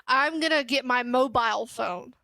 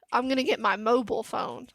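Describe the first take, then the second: First: "mobile" as MO-bile, with a long I; MO-bile pronunciation. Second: "mobile" as MO-bull, short unstressed ending; MO-bull pronunciation. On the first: Retold or imitated. Streamer quotes the other person's way, "mobile" as MO-bile. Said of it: "'Cause he says". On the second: Shown as a demonstration. Streamer shows their own way, "mobile" as MO-bull. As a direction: say "mobile" to rhyme with noble. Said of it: "I say".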